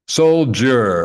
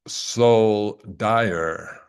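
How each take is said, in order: First: The middle is said with a 'j' sound. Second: It is split into 'soul' and 'dyer'.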